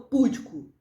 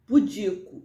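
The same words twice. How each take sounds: First: "púdico" stressed on PÚ; PÚ-di-co, front syllable punched in "púdico"; wrong stress. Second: "Pudico" stressed on DI; pu-DI-co, middle syllable leads in "Pudico"; correct stress. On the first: Teacher warning of the error, first-syllable stress on "púdico". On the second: Teacher giving the right form, middle-syllable stress on "Pudico". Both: Shown as a demonstration. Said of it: "não púdico".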